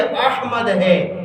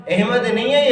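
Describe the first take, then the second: First: احمد slowly, as "AHH-mad"; correct pronunciation. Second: احمد said "EH-mad"; wrong pronunciation. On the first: Teacher correcting the common form, correct pronunciation. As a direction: draw out open "a" and breathed h in احمد. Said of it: "احمد ہے صحیح تلفظ". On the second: Teacher correcting how people say it, wrong pronunciation. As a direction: flatten the first vowel of احمد to "eh". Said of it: "یہ احمد ہے". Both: Shown as a demonstration.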